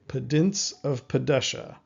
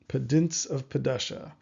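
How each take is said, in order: No difference in how they are said.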